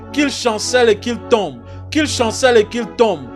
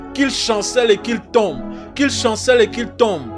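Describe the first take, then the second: Both takes have the same delivery.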